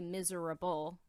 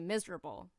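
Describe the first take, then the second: First: Every syllable is pronounced fully, as spelled. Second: Some sounds are reduced, not pronounced as spelled. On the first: The speaker calls it wrong. "you really don't say miserable the way that it's spelled. You don't say miserable" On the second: The speaker calls it right. "you say miserable"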